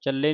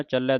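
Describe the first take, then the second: First: ਚੱਲੇ ending in a close 'ay'; single-lav ending. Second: ਚੱਲੈ ending in an open 'eh'; dulavan ending. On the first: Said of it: "ਨਹੀਂ ਪੜ੍ਹ ਦੇਣਾ". (ਚੱਲੇ ਇੱਕ ਲਾਂ ਨਾਲ) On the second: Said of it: "ਦਲਾਵਾਂ ਦੇ ਨਾਲ". (ਚੱਲੈ ਦਲਾਵਾਂ ਦੇ ਨਾਲ) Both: Shown as a demonstration.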